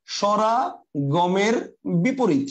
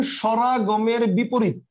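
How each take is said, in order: First: "স্বরাগমের বিপরীত" word by word, with gaps; very slow dictation. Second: "স্বরাগমের বিপরীত" stated slowly for note-taking; measured dictation. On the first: Teacher repeating the definition for students writing it, very slow dictation. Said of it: "লিখেন". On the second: Teacher giving students a definition to write down, measured dictation. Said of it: "লিখে রাখেন". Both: Shown as a demonstration.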